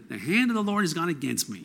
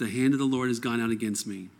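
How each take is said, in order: First: It is said with a put-on Jewish intonation. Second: It is read with plain, neutral intonation.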